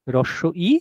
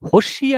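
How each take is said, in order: First: The two words are said separately. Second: The words run together into one word. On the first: The speaker calls it right. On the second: The speaker calls it wrong.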